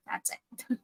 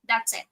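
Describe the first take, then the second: First: A breathy private aside, almost unheard; whisper. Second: Said in the usual way. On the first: Real, not acted. Trader repeats the point to himself, whispering. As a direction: whisper it to yourself, voiceless.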